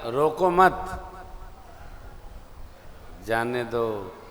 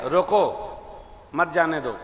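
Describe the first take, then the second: First: रोको मत joined and drawn out, long pause, then जाने दो; slow रोको मत as one phrase, then break before जाने दो; pause after मत. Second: रोको alone, pause, then मत जाने दो together; pause after रोको. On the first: Preacher shows the misheard message, pausing after मत. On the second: Preacher shows listeners the intended order, pausing after रोको. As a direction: break right after रोको, keep मत with जाने दो. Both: Shown as a demonstration. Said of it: "अर्थ बदल गया".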